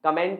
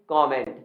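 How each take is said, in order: First: कमेंट as kuh-MENT, short first vowel; wrong pronunciation. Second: कमेंट as KOM-ent, open o first; correct pronunciation. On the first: Teacher rejecting the common form, wrong pronunciation. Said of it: "कमेंट नहीं कमेंट". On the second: Teacher showing students the proper word, correct pronunciation. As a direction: round the first vowel of कमेंट into a clear o. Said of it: "ये होता है आपका कमेंट". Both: Shown as a demonstration.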